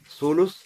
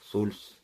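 First: A u vowel follows the l sound. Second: No vowel follows the l sound. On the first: "с даммой второй буквы" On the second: "с сукуном второй буквы"

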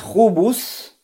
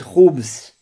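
First: A vowel is heard between the b and s. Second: No vowel is heard between the b and s. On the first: "Но можно ставить и сукун. То есть говорить хубус" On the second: "можно говорить хубс. И так можно"

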